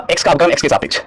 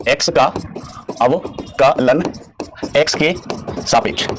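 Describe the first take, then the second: First: Said in the usual way. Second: Very slow, separated by clear pauses; word by word. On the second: Shown as a demonstration. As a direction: spell the phrase out slowly, piece by piece. Teacher repeats phrase word by word.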